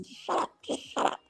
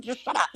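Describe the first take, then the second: First: A desperate whisper so nobody hears; whispered hush. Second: Put-on higher, urgent hush at the kid; hissed hush. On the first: Retold or imitated. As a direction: whisper it urgently to the kid. Hushing the daughter in the store. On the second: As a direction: shut the kid up fast. Hushing the daughter.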